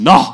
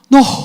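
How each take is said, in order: First: It sounds grudging and annoyed. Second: It sounds warm and delighted.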